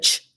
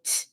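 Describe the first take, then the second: First: An English ch sound made further forward. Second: A spread, stunted sound with the tongue tip low. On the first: The speaker calls it wrong. "which is more forward" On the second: The speaker calls it right. "you're going to put the tip of your tongue behind the bottom teeth"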